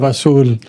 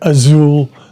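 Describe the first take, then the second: First: It is said with a native Spanish accent. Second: It is said with an English-sounding accent. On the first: This is how it should be said. The speaker calls it right. "instead of azul" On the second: This is how a poor teacher said it. The speaker calls it wrong. "we even had a Spanish teacher that would uh, pronounce words like azul"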